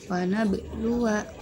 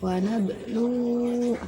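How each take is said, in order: First: The word ends in a short vowel. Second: The word ends in a long vowel. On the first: The reading continues past this word. "Jika wasol dibaca pendek" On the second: The reading stops at this word. "jika waqaf dibaca panjang"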